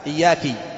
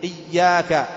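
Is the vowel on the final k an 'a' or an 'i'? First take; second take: i; a. First: The final k carries an i vowel. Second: The final k carries an a vowel. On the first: The speaker calls it wrong. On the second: The speaker calls it right.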